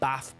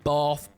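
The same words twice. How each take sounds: First: It is said with a northern English accent. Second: It is said with a southern English accent.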